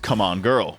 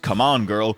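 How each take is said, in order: First: It has an odd, suggestive, sexual-sounding intonation. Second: It has a plain, neutral intonation.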